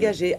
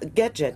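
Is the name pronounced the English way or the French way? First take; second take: French; English. First: The name ends in a soft 'zhay' sound. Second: The name ends in a hard 'jet' sound. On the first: This is the inventor's original surname. "C'est un truc de Monsieur Gagé" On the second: This is how Americans heard the name. "Et avec la prononciation"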